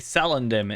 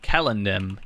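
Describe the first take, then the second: First: The word begins with an S sound. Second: The word begins with a K sound. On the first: "I say Celendim" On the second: "that's technically the correct pronunciation"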